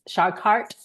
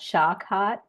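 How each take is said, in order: First: It is said in an American accent. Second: It is said in a non-American accent. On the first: "in American" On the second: "when I say it in my accent"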